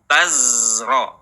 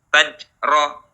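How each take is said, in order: First: The consonant is a voiced buzzing z. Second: The consonant is a j sound. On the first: The speaker calls it right. "alirkan suaranya" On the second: The speaker calls it wrong. "jangan berubah menjadi jim"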